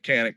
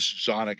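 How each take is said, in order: First: The name is said the American way. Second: The name is said the original, foreign way. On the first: This is how people in the United States say it. "over here in the United States because that's what we're going to call it" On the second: This is how people where it comes from say it. "is actually how you pronounce that with wherever they come from"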